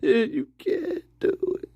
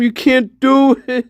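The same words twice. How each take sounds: First: Softer, breaking into laughter; can't keep a straight face; laughing. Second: Said in the usual way. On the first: Real, not acted. Repeats warning while laughing. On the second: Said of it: "repeated through laughter".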